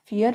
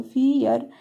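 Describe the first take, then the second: First: Said in the usual way. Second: फियर stretched into "fee-yar"; sounded-out syllables. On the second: Shown as a demonstration. Teacher building a word for learners, फियर sounded out by syllable. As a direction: draw out the long ee in फियर, then add yar.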